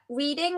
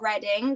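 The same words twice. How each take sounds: First: The first vowel sounds like in 'reed'. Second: The first vowel sounds like in 'red'. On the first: It is the common reading of the name. The speaker calls it wrong. "everyone pronounces it wrong" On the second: It is said like the town's name. The speaker calls it right. "my name is Reading, like the town"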